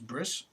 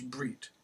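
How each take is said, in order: First: The word ends with an s sound. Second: The word ends with a t sound.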